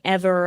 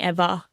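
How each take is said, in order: First: The final r sound is pronounced. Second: The final r sound is dropped. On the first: "I'm not saying" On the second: "I'm saying"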